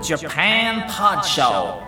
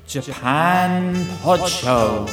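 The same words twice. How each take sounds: First: It is said in an exaggerated, showy announcer style. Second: It is said in a calmer, more restrained style. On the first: The speaker calls it wrong. "It's a little bit over the top" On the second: The speaker calls it right. "could you make it a little bit less cool"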